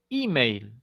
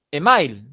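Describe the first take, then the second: First: "email" as I-meil, starting with an i sound; "email" opening on i, not e; English-style email. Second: "email" as e-MAIL in Spanish vowels; Spanish spelling-pronunciation of "email", e-ma-il; email read as written. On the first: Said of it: "no hay una E a esta altura". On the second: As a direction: say "email" letter by letter, starting with e. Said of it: "nadie lee email". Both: Shown as a demonstration.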